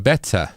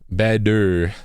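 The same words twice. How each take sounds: First: The middle consonant is a clear t sound. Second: The middle consonant is a soft d-like tap. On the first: This is how British English says it. "You say the t sound every time" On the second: This is how American English says it. "we should add the d sound"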